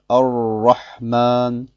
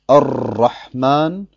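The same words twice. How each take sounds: First: The r is made without the tongue touching. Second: The r is trilled with several tongue taps. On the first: "die Zunge ganz vom Gaumen zu entfernen und zu sagen Ar-Rahman" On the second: "Es ist also falsch zu sagen Ar-Rahman"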